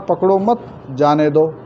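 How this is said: Mat joins pakdo; the pause follows mat.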